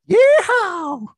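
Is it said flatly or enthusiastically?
enthusiastically. It is said with lively enthusiasm.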